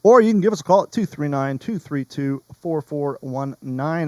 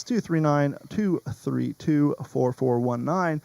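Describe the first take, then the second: First: Said in the usual way. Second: The number read back slowly, digit by digit; host double-checking his notes, reads the number slowly; slow, careful readback. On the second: Shown as a demonstration. Host rechecks the phone number for listeners, slow and deliberate. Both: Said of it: "Let me double check".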